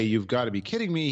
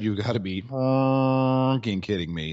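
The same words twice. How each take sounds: First: Said in the usual way. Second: "fucking" stressed, sentence slowed; slow emphatic profanity. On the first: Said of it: "he didn't say". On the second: Shown as a demonstration. Host correcting the quote, slow and emphatic. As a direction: spell out the real quote slowly, leaning on "fucking". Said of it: "He said".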